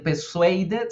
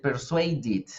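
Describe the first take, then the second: First: "persuaded" said "per-suei-det", rising; wrong-way "persuaded" with E in the last syllable; wrong ending. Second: "persuaded" said "per-suei-did", falling; correct ID ending. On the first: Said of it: "no voy a decir". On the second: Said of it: "voy a decir". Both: Shown as a demonstration.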